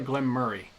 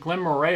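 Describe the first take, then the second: First: The second word sounds like the name 'Murray'. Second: The second word is said as spelled, 'Mo-ray'. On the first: "the Scots do pronounce it Glenmurray, like Murray" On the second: "is it Glen Moray or Glen Murray?"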